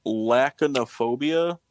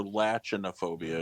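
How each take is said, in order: First: Lachanophobia with a hard K, "LACK-uh-no-phobia". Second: Lachanophobia with CH as in "latch". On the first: Quizmaster offers teams one of two pronunciations, Lachanophobia with hard K. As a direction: say Lachanophobia slowly, "lack", not "latch". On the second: Quizmaster offers the other pronunciation, lachanophobia with a CH sound. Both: Shown as a demonstration. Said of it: "It's one of the two".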